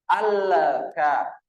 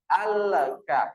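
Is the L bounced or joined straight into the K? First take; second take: bounced; bounced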